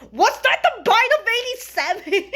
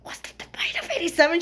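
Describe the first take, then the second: First: High, loud mock-shocked blurt; excited blurt. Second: Quick excited whisper. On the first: Fan reacting to Freddy's chomp with the meme, excited blurt. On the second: Retold or imitated. Whispering the meme to friends in the theater, hushed whisper. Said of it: "I whispered to my friends".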